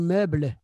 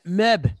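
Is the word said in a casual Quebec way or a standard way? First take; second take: standard; casual. First: It has a standard French pronunciation. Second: It has a casual Quebec French pronunciation. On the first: The speaker calls it right. "c'est meuble" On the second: The speaker calls it wrong. "le monde va dire euh, meuble. Mais c'est pas meuble"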